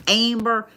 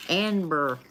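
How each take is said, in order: First: "Amber" the Oklahoma way, AIM-ber with an I slipped in; Oklahoma accent. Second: "Amber" in a thick backwoods redneck accent, nasal twang. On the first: Reader shows how Oklahomans say "Amber". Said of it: "That's how they say it here". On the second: Reader mocks her own redneck "Amber" twang. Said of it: "That's totally like a fucking backwood redneck". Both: Shown as a demonstration.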